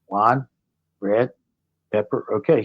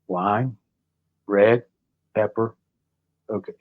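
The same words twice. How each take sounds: First: It is said slowly. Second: It is said very slowly.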